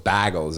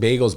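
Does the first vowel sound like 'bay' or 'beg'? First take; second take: beg; bay. First: The first vowel sounds like 'beg'. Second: The first vowel sounds like 'bay'. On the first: "It was like B E G E L" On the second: "People calling bagels"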